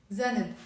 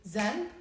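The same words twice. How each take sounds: First: Zanb said as za-neb; added vowel. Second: Zanb as one beat, no added vowel; one syllable. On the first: Teacher compares for learners, easier two-syllable zanb. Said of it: "Isn't it easier". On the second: Teacher compares for learners, bare one-syllable zanb. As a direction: close straight from n to b in zanb. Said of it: "Isn't it easier than just zanb?". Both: Shown as a demonstration.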